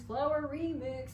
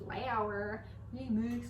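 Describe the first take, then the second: First: Higher sing-song chant, slow; chanted remix. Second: Slow sing-song chant; half-sung at a dragged pace; chanted remix. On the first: Chanted, baker turning her stutter into a remix. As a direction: lift it up into a silly chant. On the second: Chanting a silly remix of her own stutter. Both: Pretend. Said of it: "I stuttered".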